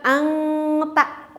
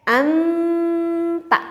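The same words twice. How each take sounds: First: Ang ta said slowly with a back ng; drawn-out ang ta, ng in the throat; wrong nasal in ang ta; wrong ikhfa. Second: Anta with the nasal near the t, higher; correct ikhfa. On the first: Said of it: "kurang tepat". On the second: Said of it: "yang betul seperti itu". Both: Shown as a demonstration.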